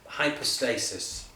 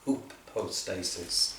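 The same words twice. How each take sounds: First: The first syllable sounds like 'high'. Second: The first syllable sounds like 'hoo'.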